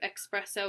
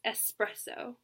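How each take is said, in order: First: The first syllable has a ks sound, like express. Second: The first syllable has a plain s sound. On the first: The speaker calls it wrong. "There's no X" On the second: The speaker calls it right. "It's espresso"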